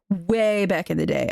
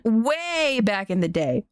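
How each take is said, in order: First: Said in the usual way. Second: "way back in the day" stretched slowly, a bit higher; drawn out. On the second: Shown as a demonstration.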